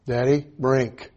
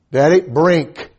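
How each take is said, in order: First: Put-on slow toddler's plea for a drink; child asking. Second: Put-on slow, louder toddler's demand; louder child's plea. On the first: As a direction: ask Daddy slowly like a small boy. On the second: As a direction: call it out louder like an insistent little boy.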